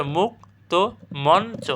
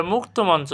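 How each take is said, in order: First: মুক্ত মঞ্চ slow as "muk... to mon... cho"; spelled by syllable. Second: Said in the usual way. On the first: Shown as a demonstration. Teacher showing how it is spelled out, slow syllable demonstration. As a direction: pause between every syllable of মুক্ত মঞ্চ. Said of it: "এর বানানটা মুক্ত মঞ্চ". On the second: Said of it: "এর বানানটা".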